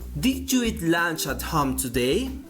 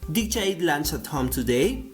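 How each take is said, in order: First: Did you is said fully and carefully. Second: Did you is reduced and run together.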